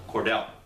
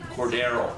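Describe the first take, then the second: First: The middle R syllable is dropped entirely. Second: The middle R syllable is fully pronounced. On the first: The speaker calls it wrong. "There is no silent R, making it Cordell" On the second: The speaker calls it right. "It's pronounced Cordarrelle Patterson"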